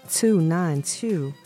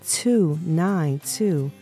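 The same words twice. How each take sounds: No difference in how they are said.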